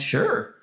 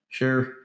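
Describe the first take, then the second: First: It is said in a cheerful, willing tone. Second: It is said in an annoyed, worn-down tone. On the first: Genuine, happy agreement. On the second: Reluctant agreement after being pestered.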